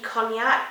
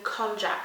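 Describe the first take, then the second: First: It is said like the drink, with 'ny'. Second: The middle is said with a 'j' sound. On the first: The speaker calls it right. "I feel like that should be cognac" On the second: The speaker calls it wrong. "that just sounds really wrong"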